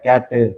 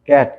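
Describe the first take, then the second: First: An extra vowel sound is added at the end. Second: The word ends cleanly on the final consonant.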